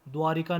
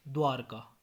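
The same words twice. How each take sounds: First: द्वारिका with an extra i after r; mispronunciation. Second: Said in the usual way. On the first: Shown as a demonstration. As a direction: say dvaa-ri-kaa for द्वारिका. (द्वारिका, र पर इ) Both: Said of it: "नहीं".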